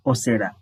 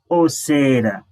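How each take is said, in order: First: "Sarah" said quick, its vowel cut short. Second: "Sarah" with the middle vowel drawn out long. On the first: Teacher shows learner the word for wizard, quick short vowel. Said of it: "if you say it quick". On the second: Teacher shows learner the word for overcharging, long vowel. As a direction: stretch the first vowel of "Sarah". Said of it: "that is overcharging". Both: Shown as a demonstration.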